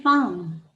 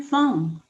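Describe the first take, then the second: First: "farm" with the R clearly sounded; American, R pronounced. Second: "form" drawn out with the R silent; British, silent R. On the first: Teacher showing learners American English, "farm" with R. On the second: Teacher showing learners British English, "form" without R. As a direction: drop the R in "form", British style. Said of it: "Form, R silent". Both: Shown as a demonstration.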